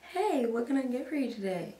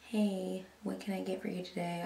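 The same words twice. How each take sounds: First: It is said in a cheerful, upbeat mood. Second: It is said in a grumpy, low mood.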